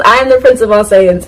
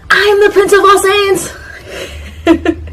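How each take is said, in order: First: Said in the usual way. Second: Hammed-up proud declaration, pitched way up; Vegeta. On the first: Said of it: "he says". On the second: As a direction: proclaim it like an over-the-top anime prince. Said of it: "this is with him saying".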